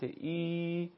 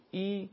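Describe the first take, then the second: First: ای held level for two beats; sustained two-beat Arabic ای; long ya madd. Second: ای as one brief beat, an i sound; a quick single-beat Arabic ای; short kasra. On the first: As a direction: stretch ای into a long steady i. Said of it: "یا مدی به صورت". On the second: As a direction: say ای short, without stretching it. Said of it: "کسره به صورت". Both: Shown as a demonstration.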